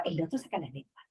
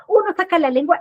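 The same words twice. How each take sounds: First: "otro" falling, much softer and quicker; tit for tat answered. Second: Put-on "Uno" lifted high and louder, the first child starting it; childish tit for tat. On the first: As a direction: drop it low and quiet, the second kid copying back. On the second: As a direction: set up the first kid's move with a rising tune. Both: Shown as a demonstration. Acting out children fighting.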